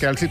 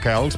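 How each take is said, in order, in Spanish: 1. El apellido termina en sonido vocal. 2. El apellido termina en sonido consonante. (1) "entenem que la majoria que diuen Kelce són els que tenen raó" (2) "hi ha gent que li diu Kels"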